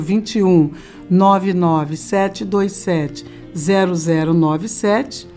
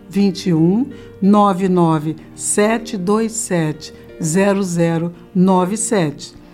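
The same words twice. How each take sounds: First: The number is read at normal speed. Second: The number is read slowly and deliberately.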